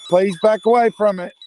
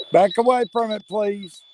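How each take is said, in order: First: Louder, higher, insistent order; loud command. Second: Raised firm voice, higher pitch; firm command. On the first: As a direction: push the words out with force. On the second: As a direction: order it back, loud and steady. Commanding a spirit to retreat. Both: Real, not acted.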